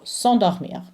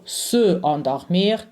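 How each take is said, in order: First: S'endormir joined, no vowel after the s; s'endormir as one connected word, "son-dor-meer"; elided into one word. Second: Se endormir as two separate words; unelided, wrong demo. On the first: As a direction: run the s straight into endormir. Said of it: "okay, becomes one". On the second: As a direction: keep the "suh" of se apart before endormir. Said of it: "it just wouldn't work for the French". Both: Shown as a demonstration.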